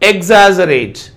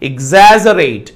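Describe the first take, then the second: First: The stress is on the first syllable. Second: The stress is on the second syllable. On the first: The speaker calls it wrong. "First syllable పైన ఇచ్చాడు" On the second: The speaker calls it right. "The stress should be on the second syllable"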